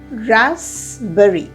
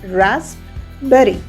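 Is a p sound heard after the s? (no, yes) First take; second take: no; yes. First: No p sound is heard after the s. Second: A p sound is heard after the s. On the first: The speaker calls it right. "The P in rasp is silent" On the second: The speaker calls it wrong. "If we go by the spelling"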